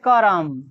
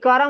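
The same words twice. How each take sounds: First: The r forms its own syllable with a vowel. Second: The r is said quickly, clustered with m. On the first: The speaker calls it wrong. "कर्म नहीं" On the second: The speaker calls it right. "ऐसे लिखाएगा ये है कर्म"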